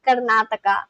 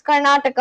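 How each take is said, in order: First: Karnataka with a Spanish accent. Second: Said in the usual way. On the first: Shown as a demonstration. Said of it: "like, a Spanish accent".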